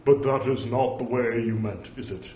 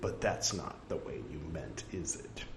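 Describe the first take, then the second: First: Mock-stern, firmly declaimed rebuke; put-on solemn scolding, no joke in it; humorless pronouncement. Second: Soft, low, understated wry remark; gentle teasing with a lightly tagged question; dryly humorous. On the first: Shown as a demonstration. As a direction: overdo the gravity, every word separate. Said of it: "That didn't strike me as". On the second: Acted. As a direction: say it as a quiet joke. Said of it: "That struck me as humor".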